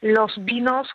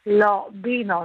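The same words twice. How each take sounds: First: The final vowels are plain and closed, ending in s. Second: The final vowels are opened to mark the plural.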